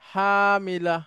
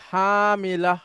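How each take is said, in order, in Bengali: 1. শব্দটি সতর্ক, আনুষ্ঠানিক উচ্চারণে বলা হয়েছে। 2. শব্দটি সতর্ক, আনুষ্ঠানিক উচ্চারণে বলা হয়েছে।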